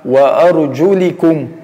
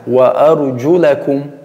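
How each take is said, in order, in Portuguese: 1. A vogal depois do L é um som de 'i'. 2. A vogal depois do L é um som de 'a'. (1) "com som de I no L" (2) "em cima do L, do Lam, Fatha"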